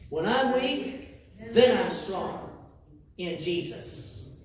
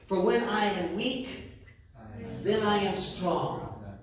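First: It is said with strong, emphatic conviction. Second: It is said plainly, without special feeling.

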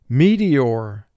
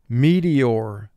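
No difference in how they are said.

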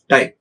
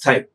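First: The t has little or no breath. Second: The t has a strong puff of breath. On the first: "if Indians are asked to pronounce it, we generally say that time... this aspiration may not be there much" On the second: "original English pronunciation by the Western people... there is a lot of aspiration noise"

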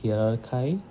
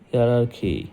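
First: The word ends with a 'kye' sound. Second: The word ends with a 'kee' sound. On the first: The speaker calls it wrong. "অনেকে হয়তো বলবে হিয়ারার্কাই" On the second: The speaker calls it right. "কিন্তু এটার pronunciation হচ্ছে হিয়ারার্কি"

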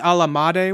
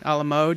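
First: The last word rhymes with 'made'. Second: The last word rhymes with 'mode'. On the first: The speaker calls it wrong. "someone asked for a brownie a la made once" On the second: The speaker calls it right. "A la mode, yeah"

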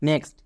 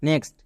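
Both takes have the same delivery.

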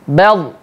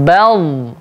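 First: The final l is cut off abruptly. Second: The final l flows on smoothly. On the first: The speaker calls it wrong. "jangan kita baca putus" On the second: The speaker calls it right.

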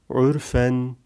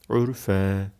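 First: The word ends with a clear n sound. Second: The word ends on a lengthened vowel, no n. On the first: The word is read in the middle of a verse. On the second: The word ends a verse.

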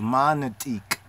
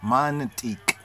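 Both takes have the same delivery.

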